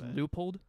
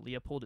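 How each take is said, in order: First: The name begins with a 'loo' sound. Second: The name begins with a 'lee-oh' sound. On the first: This is the official pronunciation. The speaker calls it right. "It's actually pronounced Leupold" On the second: This is the speaker's habitual pronunciation. The speaker calls it wrong. "but I always pronounce it Leopold"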